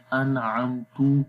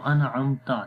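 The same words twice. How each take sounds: First: انعمتو ending on تُ with pesh; wrong u ending. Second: انعمتا ending on a clear تَ with zabar; correct short a ending. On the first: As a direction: end the word on a u instead of a. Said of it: "اس کا مطلب change ہو جائے گا". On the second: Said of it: "تو یہ اصل لفظ ہے". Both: Shown as a demonstration.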